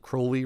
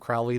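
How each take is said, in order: First: The name rhymes with holy. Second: The name does not rhyme with holy. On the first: "rhymes with holy" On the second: "the way that [name] does"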